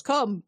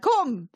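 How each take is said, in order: First: Mild mock yell; half-hearted imitation of a yell; yelled summons. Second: High, impatient mock yell; exasperated imitated shout at the door; louder yelled summons. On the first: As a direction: call to someone at the door, imitating. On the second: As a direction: call out sharper, higher, imitating. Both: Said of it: "so he yells".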